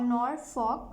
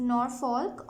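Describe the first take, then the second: First: "Norfolk" with the L dropped, like Nor-fok; alternative pronunciation. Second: "Norfolk" with the L sounded before the K; pronunciation demo. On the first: Reader shows second of both ways, "Norfolk" without the L. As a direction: say "Norfolk" slowly, leaving out the L. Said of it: "both ways". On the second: Reader shows first of both ways, "Norfolk" with sounded L. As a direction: say "Norfolk" slowly, keeping the L. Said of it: "You can pronounce it like". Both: Shown as a demonstration.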